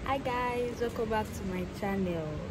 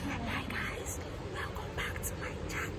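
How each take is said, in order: First: It is said at a louder volume. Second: It is said at a quieter volume.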